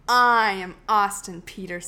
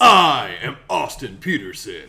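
First: Lightly imitating a stern host; a hint of a pompous announcer; mock authoritarian. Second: Booming, slow, commanding; authoritarian voice. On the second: Acted. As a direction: declare it like a dictator. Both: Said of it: "That was very authoritarian of you".

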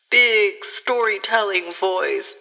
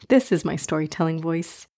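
First: Grand announcer-style storytelling voice; big storytelling voice. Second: Softer, lower gentle storyteller voice; storytelling voice. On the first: Pretend. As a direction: puff up into a big showy narrator voice. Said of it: "Just kidding. This is my storytelling voice". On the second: Shown as a demonstration. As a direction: settle into a soft, cozy narrator tone.

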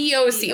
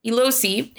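First: E O C without any L; E O C, the L dropped; corrected pronunciation. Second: Elosi with an added L; Elosi, an L slipped in before the O; mispronounced with an L. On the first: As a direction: say E O C with no L between E and O. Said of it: "It's E O C". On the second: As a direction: say Elosi with an L sound after the E. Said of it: "There's no L in there". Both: Real, not acted.

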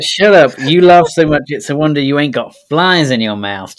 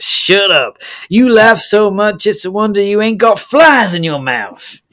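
First: Loud, higher cowboy bark; mock shout. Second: High, loud cowboy bark; hammed-up Wild West yell; mock shout. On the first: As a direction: snap it at the laughing man. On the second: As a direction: yell it like a rowdy saloon cowboy. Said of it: "this character says".

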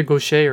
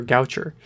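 First: Gaucher said as goh-SHAY; French-style pronunciation. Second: Goucher said as GOW-cher; anglicized pronunciation. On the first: Host giving co-host the first option, Gaucher as goh-SHAY. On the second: Host giving co-host the second option, Goucher as GOW-cher. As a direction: say Goucher with "ow", hard "ch", final "er". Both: Shown as a demonstration. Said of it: "it's either Gaucher or Goucher".

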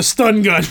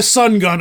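First: STUN GUN, the ST sounded at the start. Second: SUN GUN, said with a plain S and no T; sun without the T. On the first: Correcting the reader's slip, "stun gun" with the T in. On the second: Correcting the reader's slip, "sun gun" with no T. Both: Shown as a demonstration.

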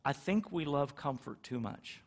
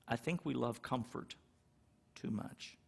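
First: Said in the usual way. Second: "too much" whispered at the end; soft, fading to a whisper. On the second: Shown as a demonstration. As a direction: drop lower and quieter, then breathe "too much". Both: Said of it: "repeats it for emphasis".

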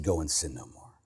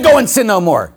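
First: "Go and sin no more" said much lower and far softer, almost hushed, "Go" falling gently; soft and gentle. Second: "Go and sin no more" said louder and higher, pressing hard on "Go"; forceful command. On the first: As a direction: say it tenderly, as a loving release. Jesus's words, tender retelling. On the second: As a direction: proclaim it boldly to the crowd. Jesus's words, first telling. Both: Retold or imitated.

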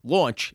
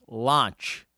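First: "launch" said with a rounded aw vowel, like lawnch; Jersey pronunciation. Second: "launch" said with an open ah vowel, like lahnch; pastor's pronunciation. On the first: Shown as a demonstration. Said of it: "That would be in Jersey". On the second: Retold or imitated. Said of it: "but he says".

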